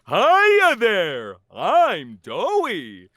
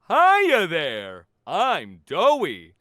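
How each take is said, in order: First: A more exaggerated, cartoony character voice. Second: A less cartoony voice, nearer the natural voice. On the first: This is the voice of a cardboard cutout of the character. "I'm doing the more cartoony voice without pitch shifting" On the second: This is the base voice of the actual monster. "the bass voice for Doey, um, before pitch shifting, he sounds like this"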